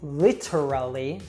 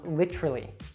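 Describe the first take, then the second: First: The T is said clearly and fully. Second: The word is shortened by dropping a syllable. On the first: The speaker calls it wrong. "we usually don't say literally" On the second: The speaker calls it right. "reduce it so it becomes literally"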